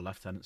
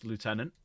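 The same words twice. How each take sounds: First: Lieutenant said as "lef-TEN-ant"; Lieutenant with an f sound in the first syllable; British pronunciation. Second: Lieutenant said as "loo-TEN-ant"; Lieutenant starting with a "loo" sound, no f; American pronunciation. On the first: Corrects the slip to British form. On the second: Corrects own pronunciation right after. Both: Real, not acted.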